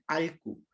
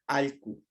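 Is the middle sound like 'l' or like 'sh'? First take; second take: l; l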